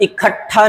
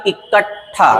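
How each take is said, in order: First: इकट्ठा said as "i-khattha". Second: इकट्ठा said as "i-kat-tha"; ट then ठ. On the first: Teacher showing the mistake, इकट्ठा with kh. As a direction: breathe the k into kh in इकट्ठा. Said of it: "इकट्ठा नहीं". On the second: Teacher correcting, इकट्ठा with ट held before ठ. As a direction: split इकट्ठा between t and th. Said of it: "ट के बाद ठ". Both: Shown as a demonstration.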